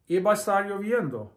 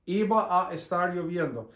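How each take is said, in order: First: It is said quickly and smoothly, words running together. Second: It is said slowly and carefully, word by word.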